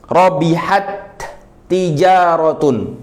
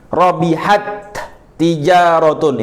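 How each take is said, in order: Both takes have the same delivery.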